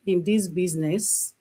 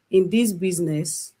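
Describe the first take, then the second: No difference in how they are said.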